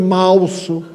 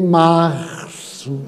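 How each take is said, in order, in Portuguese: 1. A consoante do meio soa como L. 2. A consoante do meio é um R francês forte. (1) "quando troca de letra" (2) "bote o R bem bacana, bem francês"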